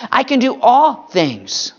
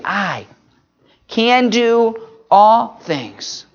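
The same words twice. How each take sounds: First: "all" held a bit and said slowly; stress on all. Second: "I" set apart, then "can" drawn out slowly; stress on I and can. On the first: Pastor repeating the verse to the moms, stressing "all". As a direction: lean on "all" and take it slowly. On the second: Pastor showing the moms which word matters, slowly stressed. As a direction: pause after "I", then slow "can do all things". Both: Shown as a demonstration. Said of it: "put emphasis on some of those different words".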